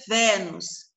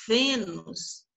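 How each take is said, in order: First: "Vênus" with an open E, as in "bet"; wrong open vowel. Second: "Vênus" with a closed E, like "ay" without the glide; correct closed vowel. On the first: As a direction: mispronounce "Vênus" with an open first E. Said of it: "Não é Vênus". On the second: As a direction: model "Vênus" with a narrow, closed first E. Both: Shown as a demonstration.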